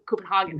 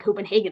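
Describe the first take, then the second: First: The name gets a local Scandinavian-style pronunciation. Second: The name gets an American-style pronunciation. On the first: This is how residents say the name. "they say Copenhagen or something" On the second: This is not how residents say the name. "people in Copenhagen don't say Copenhagen"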